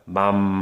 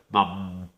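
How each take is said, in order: First: It is said with full nasal resonance. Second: It is said with the nose pinched, sounding stuffy. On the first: "코가 열려 있어요" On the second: "코를 막아버리면 코맹맹이 소리가 나게 되죠"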